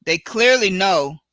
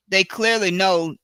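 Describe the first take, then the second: No difference in how they are said.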